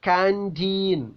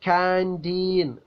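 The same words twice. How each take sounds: Both takes have the same delivery.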